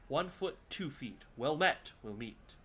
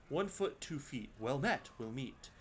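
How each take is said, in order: The two takes are said the same way.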